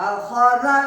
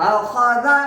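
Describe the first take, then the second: Both takes have the same delivery.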